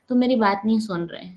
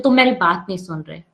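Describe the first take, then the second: First: Gentle, even complaint; calm soft tone. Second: Sharp, blaming complaint; harsh accusing tone. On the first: Teacher showing the calm way to tell someone, said gently. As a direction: say it softly, without blame. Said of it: "मैंने इस tone में बोला है". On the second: Teacher showing the harsh way to accuse someone, said sharply. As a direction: throw the words at them. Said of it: "कितना फर्क है". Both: Shown as a demonstration.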